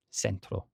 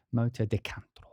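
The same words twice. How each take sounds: First: Said in the usual way. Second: Spanish accent. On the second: Shown as a demonstration. Naming the track with a put-on Spanish accent. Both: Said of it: "the accent on it".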